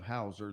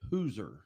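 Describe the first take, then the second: First: The first vowel sounds like 'ow'. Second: The first vowel sounds like 'oo'. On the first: This is the usual way to say the name. "instead of Hauser" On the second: This is how one family said the name. "they pronounced it Hooser"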